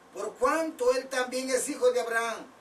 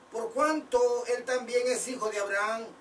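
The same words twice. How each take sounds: The two takes are said the same way.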